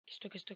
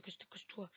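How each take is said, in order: First: Said in the usual way. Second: Whispered urgently. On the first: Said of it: "repeats then whispers". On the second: Real, not acted. Hiding from the ghost student, tense whisper. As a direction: breathe it out so the ghost can't hear.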